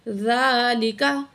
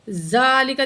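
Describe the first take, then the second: First: The first consonant is pronounced softly. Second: The first consonant is pronounced hard. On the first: The speaker calls it right. "ज़ाल को नरमी से अदा करेंगे" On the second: The speaker calls it wrong. "ज़ालिका नहीं करना, इसको सख्ती नहीं देनी"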